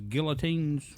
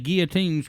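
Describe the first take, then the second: First: The double L is pronounced as a clear L. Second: The double L is not pronounced as an L. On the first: "Chris always says guillotines" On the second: "You don't even pronounce them son of a bitches when you say it"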